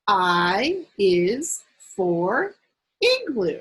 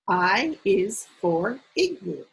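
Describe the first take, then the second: First: The sentence is read at a slower pace. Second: The sentence is read at a faster pace.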